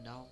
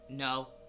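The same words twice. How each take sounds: First: It is said gently and politely. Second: It is said harshly and aggressively.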